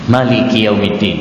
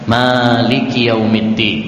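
First: The vowel after the m is short. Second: The vowel after the m is long. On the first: God is the owner of the day of judgment. "pendek mimnya" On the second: God is the king who rules the day of judgment. "mimnya panjang"

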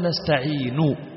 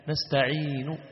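First: The final vowel is pronounced fully and clearly. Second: The final vowel is only faintly and quietly hinted. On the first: The speaker calls it wrong. "ولا تقول نستعين، هذه حركة كاملة" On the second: The speaker calls it right. "بصوت خفي"

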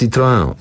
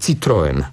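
First: The name is pronounced the French way. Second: The name is pronounced the Polish way. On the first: "ta poprawna wymowa to jest Citroën" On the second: "W reklamach słyszę reklamę samochodu Citroën. ... Tu spolszczamy"

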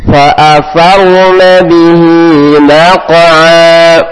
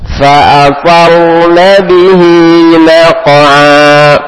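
Both takes have the same delivery.

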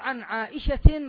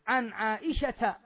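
First: The name ends with an added n sound. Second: The name ends without an added n sound. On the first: The speaker calls it wrong. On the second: The speaker calls it right.

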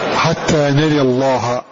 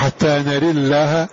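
First: The L in Allah is heavy and full. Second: The L in Allah is light and thin. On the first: "ولك أن تفخم" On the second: "أن ترقق فتقول"

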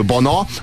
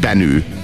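First: The name is pronounced the Hungarian way. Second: The name is pronounced the English way. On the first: "ami magyarul bana" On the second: "angolul benő"

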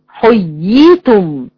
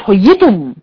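First: The long vowel is held before the second y. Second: The long vowel merges into the following y. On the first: The speaker calls it right. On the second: The speaker calls it wrong.

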